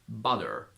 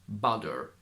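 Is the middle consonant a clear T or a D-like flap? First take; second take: D-like flap; D-like flap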